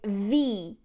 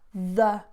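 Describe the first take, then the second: First: The word is stressed with a full vowel. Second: The vowel is a short, weak schwa. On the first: "You can also stress this" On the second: "It's with a schwa"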